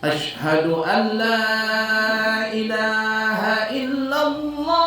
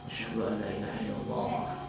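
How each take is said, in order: First: It is said in a loud voice. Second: It is said in a quiet voice.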